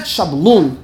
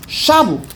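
First: Shablul with stress moved to its last syllable; slow Shablul, leaning on LUL; wrong final stress. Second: Shabu with a high, stressed first syllable. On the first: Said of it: "That's wrong". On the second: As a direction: hit SHA in Shabu, let the end drop. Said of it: "not Shablul". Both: Shown as a demonstration.

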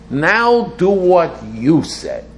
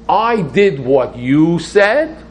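First: High, slow, emphatic demand; challenging demand. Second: High, loud, drawn-out challenge; challenging. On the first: Worshipper telling God it's his turn, challenging demand. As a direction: hit "Now" high, stretch the words, fall at the end. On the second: Worshipper holding God to his promise, challenging. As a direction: stretch out "I did what you said", pitched up, rising at the end. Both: Acted. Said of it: "So I'm challenging God to say".

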